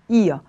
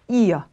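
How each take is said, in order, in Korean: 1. 마지막 r은 모음 소리가 돼요. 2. 마지막 r은 모음 소리가 돼요.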